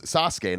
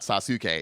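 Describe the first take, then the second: First: The vowel after the s is devoiced. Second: The vowel after the s is fully voiced. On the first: The speaker calls it right. "his name's ... it's a devoicing thing" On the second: The speaker calls it wrong.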